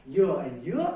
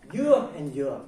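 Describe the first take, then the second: First: "you" rises, Vietnamese dứa; rising tone dứa. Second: First "you" falls, Vietnamese dừa; falling tone dừa. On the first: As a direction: say "you" climbing up, meaning pineapple. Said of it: "rising tone is". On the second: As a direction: say "you" dropping, meaning coconut. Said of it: "falling tones mean coconut". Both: Shown as a demonstration.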